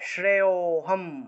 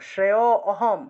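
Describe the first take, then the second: First: The 'a' is halved; the preceding vowel is lengthened. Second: A full separate 'a' vowel is pronounced. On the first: The speaker calls it right. "অটা আলাদা উচ্চারণ করা যাবে না" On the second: The speaker calls it wrong. "এইভাবে বলা যাবে না"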